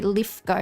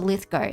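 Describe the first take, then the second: First: The middle consonant is an f sound. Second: The middle consonant is a th sound. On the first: It marks the speaker as a local. The speaker calls it right. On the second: It marks the speaker as not a local. The speaker calls it wrong.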